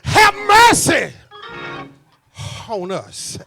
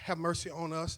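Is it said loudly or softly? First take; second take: loudly; softly. First: It is said loudly and forcefully. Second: It is said softly and mildly.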